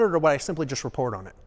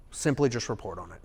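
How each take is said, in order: First: Said in the usual way. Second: "Simply" leaned on, the rest dropped softer and lower; stress on simply. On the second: Shown as a demonstration. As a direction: hit "Simply", then let the line sink quietly.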